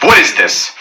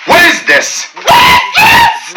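First: Said in the usual way. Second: Rising outraged yell; incredulous shout. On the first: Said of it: "What is this? (repeated louder)". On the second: Shown as a demonstration. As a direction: shout it in disbelief. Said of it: "repeated, rising to a shout".

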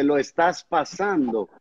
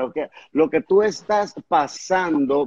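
First: Estás leaned on, slow and soft with a falling end; stress on estás. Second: Tú stressed, the rest said slowly. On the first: Pastor encouraging his guest, stressing estás slowly. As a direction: slowly press estás in lo estás pasando. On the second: Pastor quoting the phrase to his guest, slow, stressing tú. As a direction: lean on tú in lo que tú estás pasando. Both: Shown as a demonstration. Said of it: "bien lo dice".

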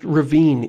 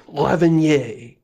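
First: Said in the usual way. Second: Lavinier said as a mock French word, stress on the end; fake French pronunciation. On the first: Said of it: "it's not pronounced ravine". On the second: Shown as a demonstration. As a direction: pronounce ravine as Lavinier, like a know-it-all dad. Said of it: "it's actually pronounced Lavinier".

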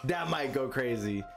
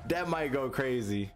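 No difference in how they are said.

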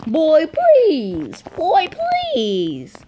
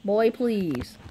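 First: High cracking please. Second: Said in the usual way. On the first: Real, not acted. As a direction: let the voice break up high. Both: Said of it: "Voice crack".

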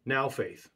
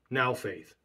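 First: Said in the usual way. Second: Now said with a firm falling weight; stress on NOW. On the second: Shown as a demonstration. Preacher showing the congregation how to stress Now. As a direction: lean on Now, let it fall. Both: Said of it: "See the difference?".

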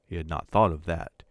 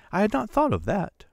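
First: Said in the usual way. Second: Much higher, delighted, thought lifted; a wife overjoyed at the idea; joyful realization. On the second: A narrator's reading. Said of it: "She uttered a cry of joy".

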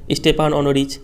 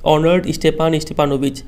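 First: स्टेपान ऑनोरिच said as the flustered wrong version, with no ऑनर्ड first; garbled name. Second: ऑनर्ड स्टेपान स्टेपानोविच said in full, each part clear, as the right form; correct name. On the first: Teacher showing students Lomov's wrong name, garbled pronunciation. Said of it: "फिर से गड़बड़ नाम pronounce करता है". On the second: Teacher showing students the correct name, careful pronunciation. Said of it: "सही नाम क्या है उसको ऐसा प्रोनाउंस करना है". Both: Shown as a demonstration.

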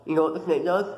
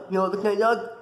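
First: Said in the usual way. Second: "You know what the snake does?" asked higher; heightened, insistent "You know what the snake does?"; suspenseful repeat. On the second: Real, not acted. Repeats question to build suspense.

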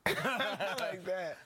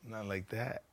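First: Slow laughing repeat. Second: Said in the usual way. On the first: Real, not acted. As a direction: laugh through the words slowly. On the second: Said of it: "laughs Not like that".

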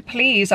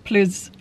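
First: Said in the usual way. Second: "Please" said as "pluz", with a short dull vowel; altered vowel. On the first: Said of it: "to say please". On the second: Shown as a demonstration. Practising an order without the letter E, "Please" pronounced "pluz". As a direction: swap the long ee in "Please" for a short uh. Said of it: "I have to be like".

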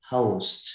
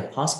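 First: "post" with the âu glide, said firmly; đọc đúng "post". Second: "post" with a plain open o, no glide; đọc sai "post". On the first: Shown as a demonstration. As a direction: model "post" with o gliding to u. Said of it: "Đang học chữ ông". (đọc "post" với âm âu rõ ràng) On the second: Retold or imitated. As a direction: imitate the student's "post" with a short open vowel. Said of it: "không phải post không". (đọc "post" sai, âm o mở, không có âu)

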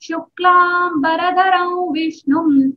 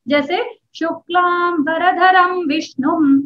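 First: Chanted slowly, "वरधरम" joined to "विष्णुम" in samhita style; संहिता पाठ. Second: Slow recitation with the usual "शुक्लाम वरधरम" m sound; चलती आवाज़ में पाठ. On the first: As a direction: intone it as samhita patha. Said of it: "संहिता पाठ होता है". (संहिता पाठ की तरह धीमे सुर में) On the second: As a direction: recite it slowly the everyday way. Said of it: "ये हम बोलते हैं". (शुक्लाम वरधरम को धीरे और अलग-अलग शब्दों में) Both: Shown as a demonstration.

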